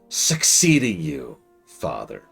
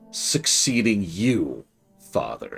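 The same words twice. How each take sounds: First: The emphasis falls on the word succeeding. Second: The emphasis falls on the word you. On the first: "he put emphasis on the word succeeding" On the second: "he put the emphasis on the word you"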